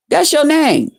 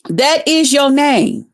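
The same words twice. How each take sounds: First: Said in the usual way. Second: Slow, with "is" split out and leaned on; stress on is. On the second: Real, not acted. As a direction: drag it out, hitting "is" as a jab. Taunting repeat of her name.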